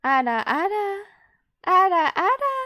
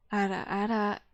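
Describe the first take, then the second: First: Loud, high-pitched "ara, ara"; defiantly high "ara, ara"; going higher. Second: "ara, ara" kept down at a low pitch; low-register "ara, ara"; as low as possible. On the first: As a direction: push "ara, ara" up high, rising at the end. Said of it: "Yeah, I'm going higher". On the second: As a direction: say "ara, ara" at the bottom of your range. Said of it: "I can't go any lower". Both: Shown as a demonstration.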